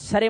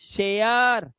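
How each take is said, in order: First: The vowel is a short plain e. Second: The vowel glides from eh to uh. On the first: The speaker calls it wrong. "मत कर देना" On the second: The speaker calls it right. "एया"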